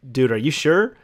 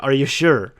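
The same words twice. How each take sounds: First: Mild doubt, rising at "sure"; doubtful question. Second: Louder question, falling on "sure"; insistent doubt. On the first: Employee questioning the boss, doubtfully. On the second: Employee pressing the boss, insistently doubtful. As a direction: press the point firmly. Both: Retold or imitated.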